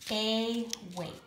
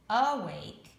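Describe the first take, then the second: First: The stress is on the first syllable. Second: The stress is on the second syllable. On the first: The speaker calls it wrong. "we're going to put our accent on the first syllable" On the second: The speaker calls it right. "but I have heard of us saying awake"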